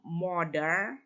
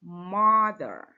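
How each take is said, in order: First: Mother as "moder", with an o and hard d; wrong pronunciation of mother. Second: Mother with a long open "ah" vowel and falling end; correct pronunciation of mother. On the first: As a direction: say mother the mistaken way, o vowel, rising end. (pengucapan mother yang salah, "moder") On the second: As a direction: model Mother slowly with an open first vowel. (pengucapan Mother yang benar, vokal "a" panjang) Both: Shown as a demonstration. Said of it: "bukan m".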